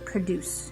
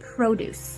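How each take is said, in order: First: It is pronounced as the verb form. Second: It is pronounced as the noun form. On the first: It means making something. "not the verb produce" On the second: It means fruits and vegetables. "it is pronounced produce"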